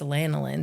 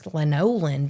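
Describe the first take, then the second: First: The middle vowel is reduced to a schwa. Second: The middle vowel is a full vowel. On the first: "There's a schwa in the middle" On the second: "According to phonics"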